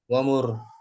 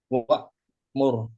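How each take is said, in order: First: No glottal stop is heard before the m. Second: A glottal stop is heard before the m. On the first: "Boleh juga dihilangkan hamzahnya Om. Dibaca" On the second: "Nah di sini masih ada hamzahnya kan?"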